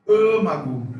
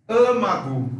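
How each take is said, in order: No difference in how they are said.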